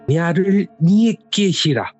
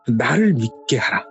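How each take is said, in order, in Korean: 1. 어색하고 외국인 같은 발음으로 말해요. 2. 자연스러운 표준 한국어 발음으로 말해요.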